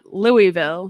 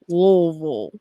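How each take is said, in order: First: The name is said with full, separate syllables. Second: The name is squeezed almost into one syllable. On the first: The speaker calls it wrong. "It's not Louisville" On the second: The speaker calls it right. "It's all supposed to be like one um one syllable"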